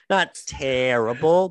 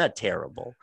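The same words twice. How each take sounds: First: "not terrible" slowed, louder, leaning on "not"; stress on not. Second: Said in the usual way. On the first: Real, not acted. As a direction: hit "not" hard and slow, then "terrible".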